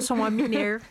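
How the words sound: It is said in a put-on rural caipira accent.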